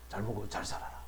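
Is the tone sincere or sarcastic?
sincere. It is said warmly and sincerely.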